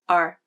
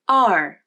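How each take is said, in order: First: The vowel is shorter, lower and flatter. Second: The vowel is longer, higher and more open. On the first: "Unstressed R" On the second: "Stressed R"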